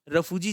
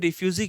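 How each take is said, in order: First: The word is said as 'rafuji' in village style. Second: The word is said as 'refyuji' in English style. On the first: "रफूजी जिसे हम कहते हैं" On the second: "English में रिफ्यूजी कहा जाता है"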